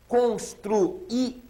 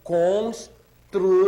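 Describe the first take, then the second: First: "Construía" drawn out very slowly, cons-tru-í-a; slow syllable by syllable. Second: "Construía" stretched very slowly and loud, each vowel apart. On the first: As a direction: spell out "Construía" slowly, stressing the í. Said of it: "vejam bem como é que é a pronúncia". ("Construía" bem devagar, sílaba por sílaba) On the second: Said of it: "Falem bem devagarzinho". ("Construía" bem devagarzinho e alto) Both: Shown as a demonstration.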